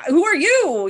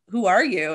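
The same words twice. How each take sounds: First: Much higher, louder comeback on "Who are you?"; retold indignant disbelief. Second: Said in the usual way. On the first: Sister answering a catfished stranger, indignant disbelief. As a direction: throw "Who are you?" back, high and loud. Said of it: "And she's just like". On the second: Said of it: "a person had a relationship with my sister".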